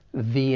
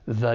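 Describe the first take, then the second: First: The article is stressed and full. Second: The article is unstressed and reduced. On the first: "It's stressed when it comes before the vowel sound in end" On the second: "it's unstressed when it comes before the consonant sound in day"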